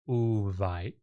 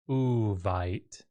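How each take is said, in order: First: The word begins with a u vowel. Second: The word begins with a u vowel.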